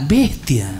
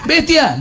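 First: Said in the usual way. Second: Laughing shout. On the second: Retold or imitated. Nickname called out, laughing.

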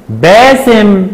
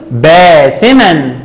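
First: Said in the usual way. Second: باسمًا slowly, ending in "-man"; fatha tanween. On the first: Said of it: "كلمة". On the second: Shown as a demonstration. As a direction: say باسمًا as "baasiman". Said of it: "عند التنوين بالفتح".

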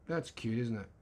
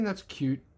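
First: Quieter second take, said half to himself; softer repeat. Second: Said in the usual way. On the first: Shown as a demonstration. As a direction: repeat it softer, almost under the breath.

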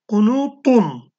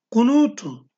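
First: "kunutun" slow, with a heavy emphatic t and dark vowels; thick t. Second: "Kunutun" with a light, thin plain t. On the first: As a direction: draw out "kunutun", pressing a thick t. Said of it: "T kalın harftir". (kalın t ile yavaş "kunutun") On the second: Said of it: "T ince harftir". (ince t ile "Kunutun") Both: Shown as a demonstration.

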